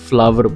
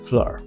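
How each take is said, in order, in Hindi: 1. एक साफ़ w की आवाज़ दोनों हिस्सों को जोड़ती है। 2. बीच में कोई w की आवाज़ सुनाई नहीं देती। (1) "ਜਿਹੜਾ ਕਿ ਗਲਤ ਪ੍ਰੋਨਾਂਸੀਏਸ਼ਨ ਹੈ" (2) "ਐਕਚੁਅਲ ਪ੍ਰੋਨਾਂਸੀਏਸ਼ਨ"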